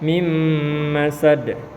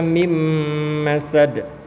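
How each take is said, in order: First: The n merges into the following m sound. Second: The n merges into the following m sound.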